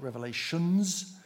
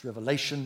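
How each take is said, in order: First: "Revelations" said with an added final s; the common mistake, "Revelations" ending in s; wrong pronunciation. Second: "Revelation" said as a single word with no final s; right pronunciation. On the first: Preacher quoting the wrong name to the congregation, "Revelations" with a final s. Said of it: "it's Revelation". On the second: Preacher correcting the book's name to the congregation, "Revelation" with no s. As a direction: end "Revelation" cleanly on the n, no s. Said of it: "not Revelations". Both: Shown as a demonstration.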